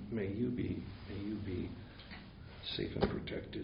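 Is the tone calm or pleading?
pleading. It is said in an eager, pleading tone. The wish has become a desire for a result. "there's a whole tone of voice that goes with this"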